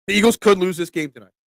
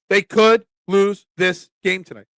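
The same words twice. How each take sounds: First: Said in the usual way. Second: "could" stressed, then "lose this game tonight" slowly spaced out; emphatic warning. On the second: Real, not acted. Host preparing fans for a possible loss, emphatic stress on "could".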